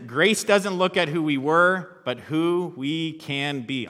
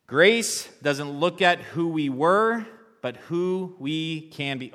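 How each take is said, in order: First: High, loud, slow refrain, starting on a laugh; loud repeat with a laugh. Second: High, loud and slow, leading the crowd; loud call to the congregation. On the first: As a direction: proclaim it again, laughing at the silent crowd. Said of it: "Say it in your heads a lot". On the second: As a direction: belt it out so the room joins in. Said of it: "let's say that together as we close". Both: Shown as a demonstration.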